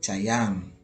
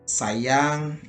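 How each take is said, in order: First: The word begins with a ch sound. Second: The word begins with a plain s sound.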